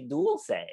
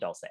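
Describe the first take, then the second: First: The first syllable sounds like 'dual'. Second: The first syllable sounds like 'dull'. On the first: The speaker calls it right. "I would encourage them to say Dulce. Just change the dull to dual" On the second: The speaker calls it wrong.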